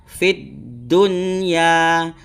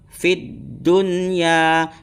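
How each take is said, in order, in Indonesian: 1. Bunyi n dibaca dengan jelas. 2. Bunyi n dibaca dengan jelas.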